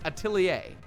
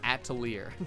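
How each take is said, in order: First: The word ends without an R sound. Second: The word ends with an R sound. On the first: The speaker calls it right. "you do not pronounce the R. ... so it's Atelier" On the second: The speaker calls it wrong. "I always thought it was Atelier"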